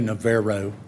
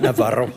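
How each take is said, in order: First: The name has an anglicized local pronunciation. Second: The name has a Spanish-style pronunciation. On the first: This is how the locals say it. The speaker calls it wrong. "They say Navarro" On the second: This is how the name should properly be said. The speaker calls it right. "like it should be"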